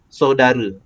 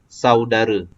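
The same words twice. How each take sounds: First: The first syllable has a plain o vowel. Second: The first syllable has the au diphthong. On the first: The speaker calls it wrong. "kita letak huruf O. ... tak sesuai lah" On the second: The speaker calls it right. "bunyi dia akan jadi jadi au"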